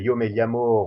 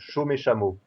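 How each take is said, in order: First: It is said in a neutral Spanish accent. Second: It is said in an Argentine Spanish accent.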